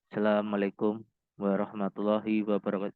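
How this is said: It sounds slow and mournful, like a funeral speech.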